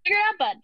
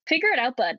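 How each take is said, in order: First: Put-on high, loud rural Alberta accent on figure it out, bud; a hint of rural Alberta bravado, mock; rural Alberta drawl, higher. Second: Put-on rural Alberta accent. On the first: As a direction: lean into the Alberta twang. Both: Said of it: "rural Alberta".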